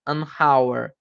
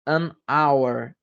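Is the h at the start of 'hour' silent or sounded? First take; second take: sounded; silent. First: The h at the start of hour is sounded. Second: The h at the start of hour is silent. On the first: The speaker calls it wrong. "nenhuma não é unhire, unhonor, unhour" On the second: The speaker calls it right. "Então não tem o som de H"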